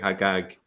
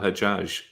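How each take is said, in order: First: The consonants are hard g sounds. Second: The consonants are soft j sounds.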